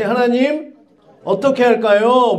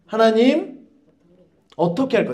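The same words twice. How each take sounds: First: 어떻게 stressed, slow and respectful; humble asking. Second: Said in the usual way. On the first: Shown as a demonstration. Preacher models asking 하나님 properly, slow and reverent. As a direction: ask God humbly, leaning on 어떻게. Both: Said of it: "자, 다시".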